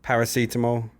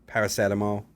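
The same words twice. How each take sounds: First: "Paracetamol" with a long ee, para-SEE-ta-mol; contrasted pronunciation. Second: "Paracetamol" with a short e, para-SET-a-mol; contrasted pronunciation. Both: Shown as a demonstration. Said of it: "That's like".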